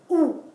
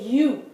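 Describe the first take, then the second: First: The vowel is said in a Spanish way. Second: The vowel is said in an English way. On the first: The speaker calls it right. "In Spanish, no. It's U" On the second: The speaker calls it wrong. "in English, you would say U"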